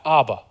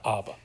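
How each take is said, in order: First: "Abba" called out a little louder, falling at the end; a modest cry of "Abba"; mild cry out. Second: "Abba" said low and much softer, almost breathed; a hushed, intimate "Abba"; soft, hushed call. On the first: Jesus in his darkest hour, a mild cry. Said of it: "could cry out". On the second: Believers in their dark hours, a hushed call. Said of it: "can cry out". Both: Retold or imitated.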